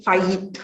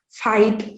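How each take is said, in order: First: "fight" with a y glide before the t; added y sound. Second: Said in the usual way. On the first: Shown as a demonstration. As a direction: stretch "fight" towards "fayit". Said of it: "addition of, uh, diphthongs". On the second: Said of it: "For example".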